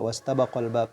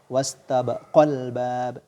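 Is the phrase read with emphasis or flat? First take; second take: flat; emphasis. First: The phrase is read flat without stress emphasis. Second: The phrase carries a marked stress emphasis. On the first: The speaker calls it wrong. "jangan dibaca ... jadi dibaca datar" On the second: The speaker calls it right. "Jadi ada penekanan"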